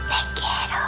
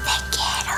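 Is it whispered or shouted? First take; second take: whispered; whispered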